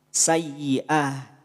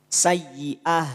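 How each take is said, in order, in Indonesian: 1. Kata ini berakhir dengan bunyi h yang lembut. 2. Kata ini berakhir dengan bunyi h yang lembut.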